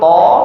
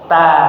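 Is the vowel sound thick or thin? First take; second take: thick; thin. First: The syllable is said thick, with a rounded vowel. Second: The syllable is said thin, with an open vowel. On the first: The speaker calls it wrong. "Jangan to" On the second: The speaker calls it right. "tapi ta ... ditipisin"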